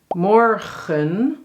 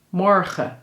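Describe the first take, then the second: First: The word ends with an audible n sound. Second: The word ends on a schwa without n.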